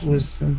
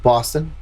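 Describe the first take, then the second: First: It is said in a New York accent. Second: It is said in a Boston accent. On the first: "I was like saying Boston in like a New York accent" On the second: "if you're from Boston?"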